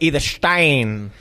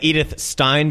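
First: The surname has a German pronunciation. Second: The surname has an anglicized pronunciation. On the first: The speaker calls it right. "but apparently it's Edith Stein" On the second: The speaker calls it wrong. "I've always said Edith Stein because I'm a filthy public school kid"

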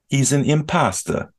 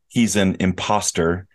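First: The R sound in the word is dropped. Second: The R sound in the word is pronounced. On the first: "impasta is with a New York City accent saying the word imposter" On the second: "instead of saying he's an imposter"

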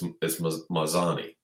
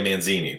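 First: The name has no n sound before the z. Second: The name has an n sound before the z. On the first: The speaker calls it right. "It's Mazzani" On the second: The speaker calls it wrong. "What did I say? Manzini?"

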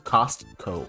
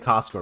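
First: The middle T sound is clearly pronounced. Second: The middle T sound is dropped. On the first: "you're supposed to pronounce the T" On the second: "both y'all say Costco right now"

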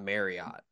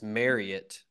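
First: The last syllable sounds like 'ot'. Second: The last syllable sounds like 'ut'. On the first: The speaker calls it wrong. "Instead of ot at the end" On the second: The speaker calls it right. "Instead of ot at the end, it's ut"

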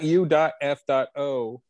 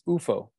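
First: It is spelled out as three separate letters. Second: It is pronounced as a single word. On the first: The speaker calls it wrong. "It's not U.F.O" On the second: The speaker calls it right. "which is the correct way to pronounce UFOs"

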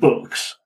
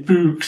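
First: The word is said with a standard vowel. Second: The word is said with a Yorkshire vowel. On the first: This is how the kids at school said it. "instead of Books" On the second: This is how a teacher from Yorkshire said it. "he used to pronounce it Books"

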